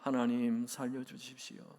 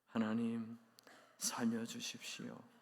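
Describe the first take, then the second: First: It is said in a somewhat louder voice. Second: It is said in a tiny, quiet voice. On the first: "조금 더 큰 소리로" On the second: "목이만한 소리로"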